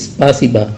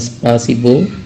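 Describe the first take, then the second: First: The final vowel is an 'a' sound. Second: The final vowel is a full 'o' sound. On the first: The speaker calls it right. "tapi spasiba" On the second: The speaker calls it wrong. "bukan spasibo"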